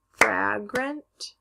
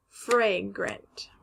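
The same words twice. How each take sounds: First: "Fragrant" as FRAG-runt, rising; short A. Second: "fragrant" as FRAY-grunt, falling; long A. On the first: Teacher repeating both options, "Fragrant" as frag-runt. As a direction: say "Fragrant" with the a of cat. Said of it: "it can sound like A or". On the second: Teacher repeating both options, "fragrant" as fray-grunt. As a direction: say "fragrant" with the a of day. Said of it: "the word is fragrant". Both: Shown as a demonstration.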